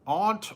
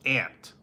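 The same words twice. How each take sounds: First: Aunt with an open ah, like ahnt; Aunt said ahnt, rhyming with font; aunt one way. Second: Aunt with a flat a, like ant; aunt said ant, nasal flat a; aunt other way. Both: Shown as a demonstration.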